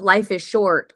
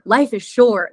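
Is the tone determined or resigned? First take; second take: resigned; determined. First: It sounds heavy and resigned. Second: It sounds upbeat and determined. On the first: Life's brevity is a cause for despair. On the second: Life's brevity is a reason to make the most of it. "Like, what am I going to do with it?"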